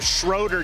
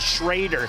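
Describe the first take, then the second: First: It uses the central Ohio pronunciation of the name. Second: It uses the west Ohio pronunciation of the name. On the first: "different than us in central Ohio" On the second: "when you get over here in Putnam County into the west side"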